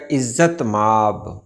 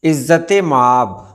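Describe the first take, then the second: First: इज़्ज़त माब with no linking vowel; correct pronunciation. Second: इज़्ज़त माब with linking "e" after t; wrong pronunciation. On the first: Teacher giving the right pronunciation, correctly pronounced. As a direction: say "izzat maab" for इज़्ज़त माब. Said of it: "सही तलफ़्फ़ुज़ है इसका". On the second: Teacher showing viewers the wrong form, mispronounced. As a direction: say "izzat-e-maab" for इज़्ज़त माब. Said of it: "ये गलत है". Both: Shown as a demonstration.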